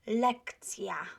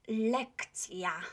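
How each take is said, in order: No difference in how they are said.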